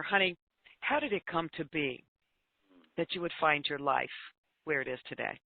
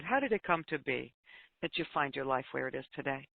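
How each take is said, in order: First: Put-on soft, gentle question to a troubled girl. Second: Quiet, tender question, softer at the end; very gentle voice. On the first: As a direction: ask it tenderly, no judgment. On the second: Retold or imitated. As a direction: ask gently and let it sink in. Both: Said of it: "in just a very gentle voice".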